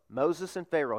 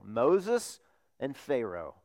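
First: Said in the usual way. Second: Slow emphasis. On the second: Shown as a demonstration. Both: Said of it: "two figures in the Old Testament that are unforgettable".

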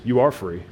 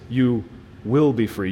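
First: "are" stated as present fact; stress on "are". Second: Pause, then land firmly on "will"; stress on "will". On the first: Preacher voices what Jesus doesn't say, stress on "are". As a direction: lean on "are" as already settled. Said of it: "Jesus doesn't say that". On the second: Preacher corrects it with what Jesus says, stress on "will". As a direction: hold back briefly, then stress "will" as future. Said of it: "No, Jesus says". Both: Retold or imitated.

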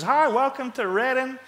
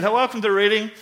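First: High, drawn-out mock welcome; hammed-up high-pitched airport welcome; exaggerated greeter. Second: Lightly imitated Alabama welcome; mild mock Alabama accent; southern Alabama accent. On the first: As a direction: overdo a woman's chirpy greeting. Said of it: "that was not how she sounded at all". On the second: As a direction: greet with a hint of southern Alabama. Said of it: "southern Alabama".

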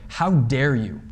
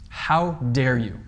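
First: A firm How dare you, flat stress on How; assertive rebuke. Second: How dare you drawn out slowly, weight on How; slow stern rebuke. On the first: Preacher demonstrating Paul's rebuke to the church, assertive. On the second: Preacher repeating Paul's rebuke slowly to let it sink in, stern. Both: Shown as a demonstration. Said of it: "a rather loud and assertive way".

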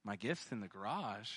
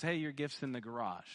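First: Low, soft puzzled echo; muted, retold bewilderment; puzzled thinking. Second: Quick, offhand imitation of brother; breezy, throwaway quote; nonchalant. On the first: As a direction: repeat it quietly to yourself, not getting it. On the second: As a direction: toss it off casually and fast. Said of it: "he kinda nonchalantly goes".

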